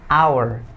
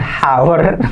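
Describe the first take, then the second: First: The h at the start is silent. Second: The h at the start is pronounced. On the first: The speaker calls it right. "Jadi cukup bacanya hour" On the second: The speaker calls it wrong. "Bukan hour"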